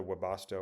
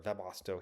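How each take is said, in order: First: Webasto said in its first variant; first pronunciation. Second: Webasto said in its second variant; alternative pronunciation. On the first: Reading the heater brand name, first try at Webasto. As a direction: offer Webasto one way first. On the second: Reading the heater brand name, second try at Webasto. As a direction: correct Webasto to the other pronunciation. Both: Shown as a demonstration. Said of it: "Webasto or Webasto".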